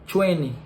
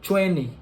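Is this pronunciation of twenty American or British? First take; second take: American; American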